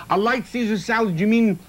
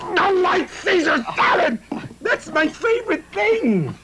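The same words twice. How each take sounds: First: Said in the usual way. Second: Much higher, slow, overdone delight; mock gushing. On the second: Host gushing over the chef's light Caesar salad. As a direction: swoon over the salad like a fan.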